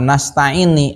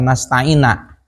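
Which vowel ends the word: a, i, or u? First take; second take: i; a. First: The word ends with an i vowel. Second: The word ends with an a vowel. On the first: "dibaca nasta'ini" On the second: "atawa dibaca nasta'ina"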